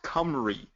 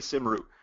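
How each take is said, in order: First: It is said with the original native pronunciation. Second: It is said with the common anglicized pronunciation. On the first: This is how the project's creators say it. "it's actually pronounced Cymru" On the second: This is how most people say it. "but most people say Simru"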